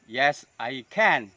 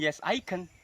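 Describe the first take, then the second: First: The final can is said in its full form. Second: The final can is said in a reduced form. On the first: The speaker calls it right. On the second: The speaker calls it wrong.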